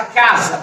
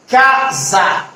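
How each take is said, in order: First: Said in the usual way. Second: "casa" split into two slow, even beats, ca-sa; syllable by syllable. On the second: Shown as a demonstration. Teacher asking students to count syllables, "casa" said syllable by syllable. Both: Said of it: "ela é composta de quantas sílabas".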